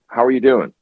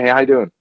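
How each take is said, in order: First: It is asked in a sincere, meaningful way. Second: It is asked in a casual, offhand way.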